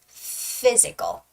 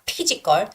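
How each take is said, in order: First: The word begins with an F sound. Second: The word begins with a P sound. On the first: The speaker calls it right. "it's always got to be F, F sound" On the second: The speaker calls it wrong. "it's not physical"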